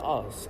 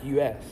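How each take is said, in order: First: It is said as the single word us. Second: It is said as the two letters U S. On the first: The speaker calls it wrong. "apparently it's not actually called Us" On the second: The speaker calls it right. "It's called U S"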